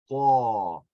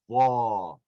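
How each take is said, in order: The two takes are said the same way.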